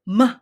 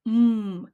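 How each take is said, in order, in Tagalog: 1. May patinig na tunog pagkatapos ng katinig. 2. Binibigkas ang katinig nang mag-isa, walang patinig. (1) "Hindi siya ma" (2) "Kailangan m"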